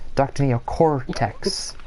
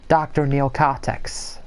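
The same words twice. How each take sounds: First: The R sound is pronounced. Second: The R sound is dropped. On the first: The speaker calls it right. "it's an R, so it's" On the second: The speaker calls it wrong. "oh, wait, no"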